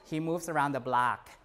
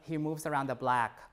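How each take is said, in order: First: The vowel in block is an open ah. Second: The vowel in block is shifted toward eh.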